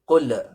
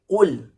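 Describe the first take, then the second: First: The final L has an added bouncing echo. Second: The final L ends smoothly without any bounce. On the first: The speaker calls it wrong. "tidak perlu membaca dengan qul" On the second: The speaker calls it right. "tapi cukup dengan qul"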